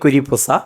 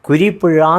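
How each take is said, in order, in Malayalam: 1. അവസാന അക്ഷരം s ശബ്ദത്തിൽ തുടങ്ങുന്നു. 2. അവസാന അക്ഷരം zh ശബ്ദത്തിൽ തുടങ്ങുന്നു. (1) "പറയാൻ അറിയാൻ വയ്യ" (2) "കുരിപ്പുഴ എന്ന് പറയാൻ ആർക്കും സാധ്യമല്ല"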